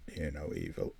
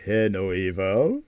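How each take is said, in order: First: Low, soft and hushed; hushed title read. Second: Said in the usual way. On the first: Shown as a demonstration. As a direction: breathe the title quietly. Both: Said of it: "I'll do some acting for yous".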